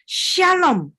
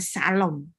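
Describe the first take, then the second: First: The word begins with a sh sound. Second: The word begins with a plain s sound. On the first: The speaker calls it right. "Shalom bukan salom" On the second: The speaker calls it wrong. "bukan salom"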